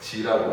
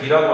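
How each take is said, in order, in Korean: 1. 이 단어는 j 소리로 시작해요. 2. 이 단어는 딱딱한 g 소리로 시작해요. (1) "실제로는 지라고 하지" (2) "기라고 안 그러고"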